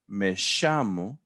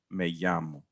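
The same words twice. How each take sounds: First: The double L has an Argentine 'sh' sound. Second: The double L is a plain Y sound. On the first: The speaker is from Argentina. "you're from Argentina, aren't you?" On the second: The speaker uses standard Spanish. "Standard Spanish is like a Y sound"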